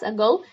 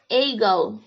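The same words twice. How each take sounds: First: The first vowel is a short reduced sound. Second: The first vowel is a full, exaggerated 'a'. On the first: The speaker calls it right. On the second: The speaker calls it wrong.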